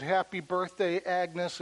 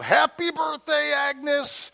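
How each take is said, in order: First: Said in the usual way. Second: High, loud yelled greeting; surprise shout. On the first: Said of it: "she said". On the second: Retold or imitated. Crowd surprising Agnes at the diner, loud shout. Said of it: "they yelled out".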